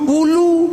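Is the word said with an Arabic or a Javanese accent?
Javanese. The middle consonant is turned into an l.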